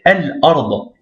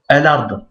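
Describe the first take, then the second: First: Slow "Al-Ard" with a break after Al; slowly detached "Al-Ard"; separated, no liaison. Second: "Al-Ard" run together as "elard"; "Al-Ard" as one joined word; wrong liaison. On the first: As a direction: hold the L, then start Ard afresh in "Al-Ard". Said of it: "séparément et sans liaison". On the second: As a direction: link the L onto Ard in "Al-Ard". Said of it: "Non, pas Al-Ard". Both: Shown as a demonstration.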